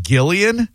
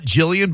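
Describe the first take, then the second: First: GILLIAN with a hard G, as in give. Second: JILLIAN with a soft G, as in gem. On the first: Host checking the caller's name, hard-G Gillian. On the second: Host checking the caller's name, soft-G Jillian. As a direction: say Jillian starting with a J sound. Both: Shown as a demonstration. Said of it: "Hard G".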